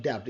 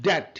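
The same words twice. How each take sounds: First: "daft" said as "debt" with the b sounded, debt as DEBT; wrong pronunciation. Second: "dat" as DET, the b of debt silent; correct pronunciation. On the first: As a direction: demonstrate the mistaken "daft" with an extra consonant before t. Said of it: "no, it's not daft". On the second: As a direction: say "dat" short, ending cleanly on t. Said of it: "it's a". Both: Shown as a demonstration.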